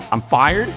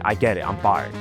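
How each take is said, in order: First: "fired" rising into a disbelieving question; incredulous question. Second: Low, falling statement; resigned acceptance. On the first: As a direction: suddenly take it in and question it. Realises he is sacked. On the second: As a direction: concede it, letting "fired" drop. Grudgingly accepts being sacked. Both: Acted.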